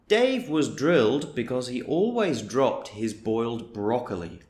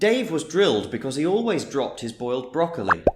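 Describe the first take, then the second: First: The sentence is spoken at a moderate pace. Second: The sentence is spoken quickly at full speed. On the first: "I'll say it a little bit faster" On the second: "I'll say it at full speed"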